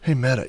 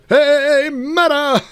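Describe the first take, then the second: First: It is mumbled quietly under the breath. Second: It is said loudly, like a shout. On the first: "you could just mumble under your breath" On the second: "You don't have to shout like"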